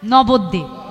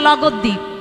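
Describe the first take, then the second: First: The name begins with an N sound. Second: The name begins with an L sound. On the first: This is the proper name of the place. The speaker calls it right. "কি বলে? নবদ্বীপ" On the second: A small child is mispronouncing the name. The speaker calls it wrong. "তা লগদ্বীপ কে বলছে নবদ্বীপ"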